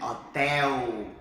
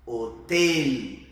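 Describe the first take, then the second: First: HOTEL as o-TÉ-u, wide open é; Portuguese pronunciation. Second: HOTEL loud, with closed e and clear final l; Spanish pronunciation. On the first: Teacher contrasting with Spanish, Portuguese pronunciation. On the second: Teacher contrasting with Portuguese, Spanish pronunciation. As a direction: narrow the e of HOTEL, tongue up for the l. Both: Shown as a demonstration. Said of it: "Olha a diferença pro português".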